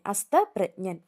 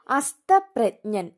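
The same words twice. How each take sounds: First: Said in the usual way. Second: അസ്തപ്രജ്ഞൻ said very slowly, falling; slow announced word. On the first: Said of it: "ജായാണ് ആദ്യം വരുന്നത്". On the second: Shown as a demonstration. Teacher announcing the word to students, very slowly. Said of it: "ജായും ഞായും".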